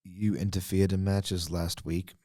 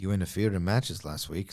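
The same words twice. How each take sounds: First: Drain the tune from "You interfered in matches last week"; less intonation. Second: A slight lift on "matches" in a deadpan imitation; too much intonation. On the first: Retold or imitated. Redoing Ava's accusation for co-hosts, toneless deadpan. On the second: Mimicking Ava's accusation for co-hosts, a touch too much intonation. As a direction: let "matches" rise a little too much. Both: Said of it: "Sorry, too much intonation".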